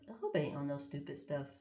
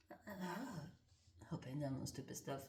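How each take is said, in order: First: Said in the usual way. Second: Slow, much softer whispered worry; hushed, slowed-down repeat. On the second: Real, not acted. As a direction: breathe it under your breath. Repeats line, second time whispered.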